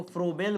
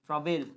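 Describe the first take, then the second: First: फ्रोबेल with an "o" in the first syllable; first vowel rounded, फ्रोबेल; variant pronunciation. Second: फ्राबेल with a long "aa" in the first syllable; first vowel open, फ्राबेल; variant pronunciation. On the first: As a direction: say फ्रोबेल as "fro-bel". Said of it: "कई लोग इनको फ्रोबेल बोलते हैं". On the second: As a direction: say फ्राबेल as "fraa-bel". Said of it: "कई जिसको फ्राबेल बोलते हैं". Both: Shown as a demonstration.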